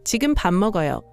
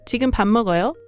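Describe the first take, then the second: First: The pitch falls at the end. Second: The pitch rises at the end. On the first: It states that the speaker is eating now. "is a statement" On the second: It asks whether the listener is eating now. "is a question"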